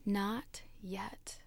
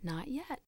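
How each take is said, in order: First: Silent mouthed whisper. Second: Much softer, barely voiced and calm; soft calm reply. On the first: Acted. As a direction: whisper it as if only lips move. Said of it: "I could read his lips". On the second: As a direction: answer quietly, unmoved. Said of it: "the master only nodded".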